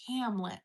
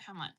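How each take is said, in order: First: It is said in an American accent. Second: It is said in an Australian accent. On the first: "Americans are really great at rounding their vowels" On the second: "Australians are like Hamlet"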